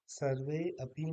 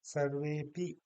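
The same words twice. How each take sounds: First: सर्वे अपि with an audible अ; two separate words. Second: सर्वेपि with वे held long; सर्वेपि as one word, no अ; joined long e. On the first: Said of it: "नहीं कहेंगे". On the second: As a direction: run सर्वेपि together, stretching वे. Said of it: "इसको दीर्घ कर देंगे". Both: Shown as a demonstration.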